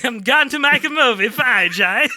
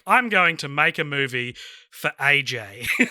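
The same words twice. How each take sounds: First: It is said in a put-on foreign character voice. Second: It is said in the speaker's natural voice.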